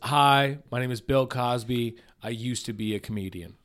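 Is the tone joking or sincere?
sincere. It is said plainly and sincerely.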